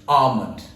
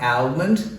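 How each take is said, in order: First: The L sound is silent. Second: The L sound is pronounced. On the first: The speaker calls it right. "it's almond" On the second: The speaker calls it wrong. "Here, the L is not pronounced. It's not almond"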